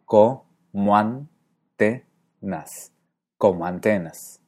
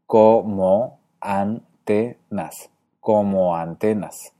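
First: COMO ANTENAS as co-MUAN-te-nas, slowly, then whole; diphthong. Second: COMO ANTENAS as co-mo-an-te-nas, slowly, then whole; hiatus. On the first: Teacher shows Galle's como antenas, with a diphthong. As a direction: merge como into antenas with a "mua" glide. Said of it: "hace un diptongo y silabifica". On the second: Teacher shows his and Horacio's como antenas, in slow hiatus. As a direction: keep the O of como apart from antenas. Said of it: "separamos la O de la A". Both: Shown as a demonstration.

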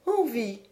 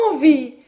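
First: Said in the usual way. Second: "Envie?" thrown out louder and higher; taken aback. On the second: A narrator's reading. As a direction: repeat "Envie?" with a startled lift. («Envie?» plus fort, étonnée) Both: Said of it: "N'en avez-vous pas envie".

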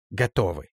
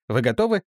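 First: «Готовы» with a falling end; «Готовы» said flat and final; firm answer. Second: «готовы» rising as a question; «Вы готовы?» with a lifting end; asking question. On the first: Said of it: "ответила за всех Ганга". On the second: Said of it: "Бартоломей asks". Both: Acted.

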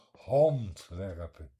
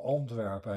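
First: "Handwerpen" drawn out slowly and loudly, with an h put in front; wrong h. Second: Said in the usual way. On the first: Shown as a demonstration. Mocking the h-confusion to the listener, slow and loud "Handwerpen". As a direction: stretch "Handwerpen", landing hard on the added h. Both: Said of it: "de Belgen spreken de H niet uit".

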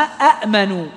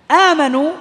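First: أأمنوا with two separate hamzas, the second one still; original form demo. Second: Teacher shows the lengthened آمنوا; long madd demo. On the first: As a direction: sound both glottal stops in أأمنوا. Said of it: "أصلها". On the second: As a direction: stretch the آ of آمنوا into one long vowel. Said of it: "أصلها أأمنوا". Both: Shown as a demonstration.

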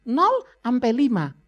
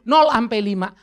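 First: "Nol sampai lima" slow, each word weighted; slow emphatic "nol sampai lima"; slow stress on nol sampai lima. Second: "nol sampai lima" pushed louder, "nol" hit hard; loud emphatic "nol sampai lima"; louder repeat of nol sampai lima. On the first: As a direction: lay out "nol sampai lima" slowly and deliberately. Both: Shown as a demonstration. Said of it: "nol sampai lima usia krusial".

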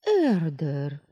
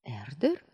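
First: "Эрдер" drawn out as a loud exclamation; exclaiming. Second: "Эрдер" rising sharply at the end; "Эрдер" with a questioning upswing. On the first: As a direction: cry out "Эрдер" in indignant recognition. Heroine repeats name as outraged exclamation. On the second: Startled heroine repeats the name. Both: A narrator's reading.

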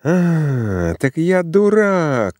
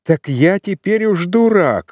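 First: Higher, slow, bitter cry of insult; furious outburst. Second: Higher, slowed, bitter repeat of дурак; angry retort. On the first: Rejected suitor shouting at Zina in rage. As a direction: spit out the word дурак as a wounded accusation. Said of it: "кричал он". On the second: Suitor furious at being fooled, angry. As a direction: hammer дурак home in disbelief. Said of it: "закипел от ярости". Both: A narrator's reading.

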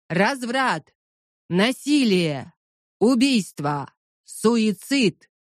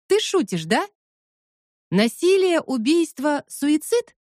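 First: Preacher shouting slogans; slow, falling preacher's cries; loud soapbox ranting. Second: High, disbelieving questions; incredulous. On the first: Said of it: "выкрикивает лозунги голосом проповедника". (кричит лозунги как проповедник) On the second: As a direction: repeat the words in disbelief. Incredulous repeat of slogans. (недоверчиво, высоким голосом) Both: Acted.

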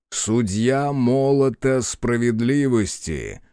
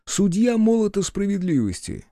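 First: Slow, grand title announced; solemn proclamation. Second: High, amused disbelief at the title; incredulous mockery. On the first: Acted. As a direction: declare your title with gravity. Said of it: "провозгласил он". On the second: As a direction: repeat it as if it's absurd. Хотелось расхохотаться.

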